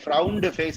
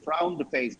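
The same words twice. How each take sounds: First: The -ed ending is clearly pronounced. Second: The -ed ending is swallowed. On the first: The speaker calls it wrong. "I never say frowned face" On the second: The speaker calls it right. "I say frowned face. ... ed அப்படியே உள்ள போயிடும். That's called the glottal effect"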